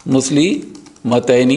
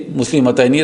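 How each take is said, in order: First: Slow demo word. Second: Said in the usual way. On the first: Shown as a demonstration. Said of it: "slow demo of the word". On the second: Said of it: "said again in the sentence".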